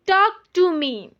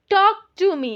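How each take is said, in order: Both takes have the same delivery.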